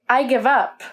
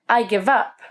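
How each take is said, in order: The two takes are said the same way.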